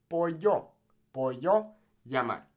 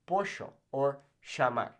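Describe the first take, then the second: First: "Pollo", "llamar" as po-yo, ya-mar; Y sound. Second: "Pollo", "llamar" as po-sho, sha-mar in Argentine accent. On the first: Teacher recommends the general rule, Spanish Y sound. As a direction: give double L in "Pollo" a plain y. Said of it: "say it like a Y". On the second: Teacher allows the regional option, Argentine accent. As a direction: Argentine Spanish sh for double L. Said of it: "a particular accent like that". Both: Shown as a demonstration.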